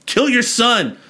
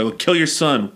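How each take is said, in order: First: Very high, emphatic mock exasperation; high-pitched insistence, falling hard at the end; insistent repeat. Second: Offhand command, falling at the end; mildly raised, matter-of-fact acted instruction; casual order. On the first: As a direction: repeat the order as if to someone slow. God repeats the order insistently. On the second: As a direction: toss out the order as if it were obvious. God's first order to Abraham.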